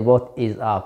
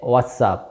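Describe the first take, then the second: First: The word 'is' is said in full. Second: The word 'is' is contracted to 's'. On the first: The speaker calls it wrong. "you don't say what is up" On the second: The speaker calls it right. "you say what's up"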